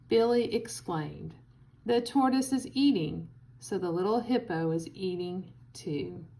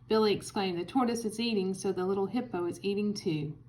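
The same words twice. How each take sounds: First: It is read with short pauses between phrases. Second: It is read straight through without pauses. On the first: "Now, with commas" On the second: "I'll read the first one without commas"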